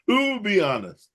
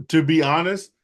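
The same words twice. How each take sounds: First: Laughing through the words. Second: Said in the usual way. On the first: Real, not acted. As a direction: laugh as you say it. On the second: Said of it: "repeated with a laugh".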